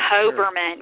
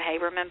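First: The first syllable sounds like 'hob'. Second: The first syllable sounds like 'hab'. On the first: The speaker calls it right. "I think it's Hoberman" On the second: The speaker calls it wrong. "Am I saying that correctly?"

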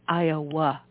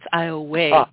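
First: The name is said as written, ending in 'ah'. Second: The name ends with a 'y' glide, like 'ay'. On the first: This is how the name looks in writing. "It's spelled Iowa" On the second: This is how locals actually say the name. "but it's Iowa. Don't ask me how that W, that Y got in there"

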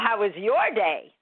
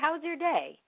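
First: The question sounds irritated and cold. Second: The question sounds warm and friendly. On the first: The speaker is upset and it shows. The speaker calls it wrong. "Instead of, well" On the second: The speaker responds kindly despite the other's anger. The speaker calls it right. "you're like, hey"

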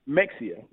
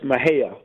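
First: The name has a 'ks' sound in the middle. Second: The name ends in a 'hee-uh' sound. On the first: The speaker is not from the area. The speaker calls it wrong. "if you are somebody that's not from Maher, is Mexia" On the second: This is the proper local name. The speaker calls it right. "That's how it's said"

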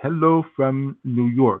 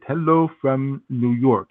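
First: It is said in imitated Russian-accented English. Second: It is said in imitated Russian-accented English.

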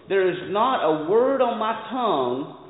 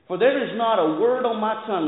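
First: It is read slowly. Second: It is read at a normal pace.

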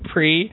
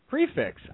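First: The word ends in an 'ee' sound. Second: The word ends in a 'ks' sound. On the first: "FIXE should be fee as well, because the X is pronounced as an E" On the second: "I was right"

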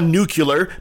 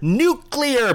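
First: The word is said as nucular. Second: The word is said as nuclear. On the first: The speaker calls it wrong. "not nuclear" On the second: The speaker calls it right. "Do it right, people"

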